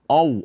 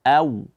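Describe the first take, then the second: First: The vowel starts with an o sound. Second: The vowel starts with an a sound. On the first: The speaker calls it wrong. "Jangan dibaca o" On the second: The speaker calls it right. "tapi dibaca a"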